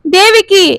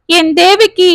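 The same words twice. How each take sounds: First: Higher and louder, tears breaking through; mild narrated sob in the voice; crying out. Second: A higher, choked cry of her name; calling his wife as the tears start; a touch of grief rising; breaking into tears. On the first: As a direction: wail her name as he breaks down. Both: A narrator's reading. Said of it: "அழ ஆரம்பித்தார் மகாதேவன்".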